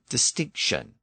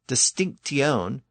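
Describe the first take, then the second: First: A sh sound comes before the ending. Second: A t sound comes before the ending. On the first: The later, softened pronunciation. "It became shion or sion" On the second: The older, unsoftened pronunciation. "this same process affected the T sound"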